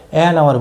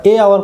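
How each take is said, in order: First: Lower-pitched, settled "এন" before hour; corrected article. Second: "এ" as a separate word before hour; the faulty "এ hour", article picked out; wrong article. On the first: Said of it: "এন hour বলে থাকি". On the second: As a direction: point out "এ" as the mistake before hour. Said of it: "কোনোদিন বলি না". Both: Shown as a demonstration.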